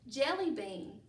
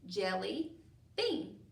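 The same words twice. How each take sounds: First: It is said as one whole word. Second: It is said as two separate parts.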